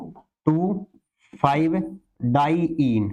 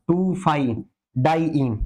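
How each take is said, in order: First: "टू", "five", "diyne" each said separately with long pauses; word by word. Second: Said in the usual way. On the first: Shown as a demonstration. Teacher repeating the compound's name for students, word by word. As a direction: dictate "टू ... five ... diyne" one piece at a time.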